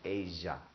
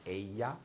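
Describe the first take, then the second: First: The double L sounds like a J. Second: The double L sounds like a Y. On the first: "it can also sound like a J, depending on where you're from" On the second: "the double L sounds like a Y"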